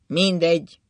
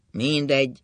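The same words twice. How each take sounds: First: Louder, raised, bitter resignation; sad resignation. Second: Sad resignation. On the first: Drunk husband no longer caring, sadly resigned. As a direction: give up with sorrowful force. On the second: Drunk husband repeating that nothing matters, sadly resigned. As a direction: let it sink in sadly. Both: A narrator's reading. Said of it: "mondta szomorúan".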